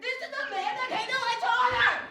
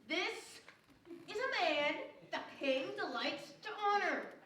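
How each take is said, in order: First: It is said loudly. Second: It is said quietly.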